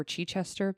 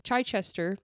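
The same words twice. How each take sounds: First: Chichester said as "CHEE-chester", with a short ee in the first syllable; alternative pronunciation. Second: Chichester said as "CHYE-chester", with a long i in the first syllable; first pronunciation. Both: Shown as a demonstration. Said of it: "or Chichester".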